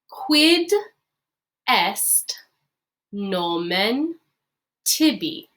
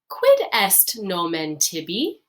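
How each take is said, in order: First: The phrase is said at a slower pace. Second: The phrase is said at a faster pace.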